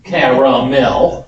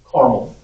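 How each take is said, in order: First: The word is said with three syllables. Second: The word is said with two syllables. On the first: "With three syllables" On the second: "you have two syllables"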